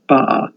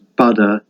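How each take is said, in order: First: The middle t disappears into a catch. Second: The middle t sounds like a d.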